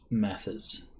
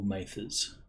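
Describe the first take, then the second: First: Short-a "Mathers", no r sound at the end; Mathers, first variant. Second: Long "ay" in "Mathers", rising at the end; Mathers, Australian variant. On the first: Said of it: "how you want to pronounce it". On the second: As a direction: say "Mathers" as MAY-thers, long a. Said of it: "Mathers if you're Australian". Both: Shown as a demonstration.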